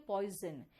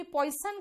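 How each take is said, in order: First: "पॉइजन" said poi-zun; corrected "पॉइजन" with z for s; correct poison pronunciation. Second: "पॉइजन" said poi-sun with hiss s; wrong-example "पॉइजन", s for z; mispronounced poison. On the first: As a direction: buzz the z in "पॉइजन". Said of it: "आप कहते हो पॉइजन". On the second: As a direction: use s in "पॉइजन". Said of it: "आप कभी पॉइजन कहते हो क्या?". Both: Shown as a demonstration.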